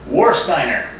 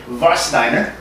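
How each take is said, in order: First: The name is said with an English pronunciation. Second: The name is said with a German pronunciation. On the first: "that's what I called it for years" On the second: "the proper pronunciation is actually Warsteiner"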